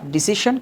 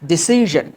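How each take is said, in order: First: The middle consonant is a voiceless hissing sound. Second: The middle consonant is a voiced buzzing sound. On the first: The speaker calls it wrong. "Not ডিসিশন" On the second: The speaker calls it right. "এটা হবে তোমার ডিসিশন"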